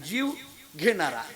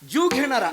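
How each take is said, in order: First: There is a pause between the two words. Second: The two words run together without a pause. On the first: The living being is the one who receives. The speaker calls it right. "जीव म्हणायचं, थांबायचं आणि मग घेणारा म्हणायचं" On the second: Someone who takes a life, a killer. The speaker calls it wrong. "असं नाही"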